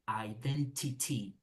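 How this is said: The t sounds are crisp and clear. This is the British way. "British they say identity. You need to say T T"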